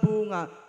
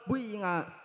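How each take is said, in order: First: The first vowel is a pure u sound. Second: The first vowel blends u into i. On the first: "ikhlasul dhammi"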